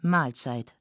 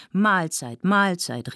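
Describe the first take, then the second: First: Said in the usual way. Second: Higher, brisk communal call. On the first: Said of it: "sagte Selma". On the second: A narrator's reading. Guests rising from dinner, called out cheerily. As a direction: call it out to the whole table. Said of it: "riefen alle".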